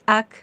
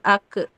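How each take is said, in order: First: The final k is released with a breathy puff. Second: The final k bounces with an echoing vowel. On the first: The speaker calls it right. "jadi hamas" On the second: The speaker calls it wrong. "itu mah mantul"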